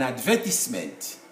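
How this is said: It is said in a British accent. "in the U K, people say an advertisement"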